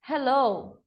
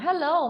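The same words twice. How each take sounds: First: The word is said more slowly. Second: The word is said at normal speed.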